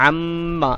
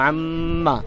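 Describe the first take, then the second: The two takes are said the same way.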